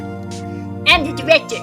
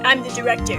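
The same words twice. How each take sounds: First: It is said in Cody's voice. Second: It is said in the director's voice.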